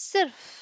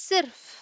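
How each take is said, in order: Both takes have the same delivery.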